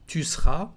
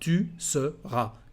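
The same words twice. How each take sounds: First: The middle vowel of seras is dropped. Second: The middle vowel of seras is clearly said. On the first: "remove the sound e in the verb" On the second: "instead of"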